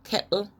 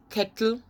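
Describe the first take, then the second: First: "kettle" with no T, "ke'l"; glottal stop. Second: Said in the usual way. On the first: Shown as a demonstration. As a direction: catch the throat in place of TT in "kettle". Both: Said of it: "they don't sound T".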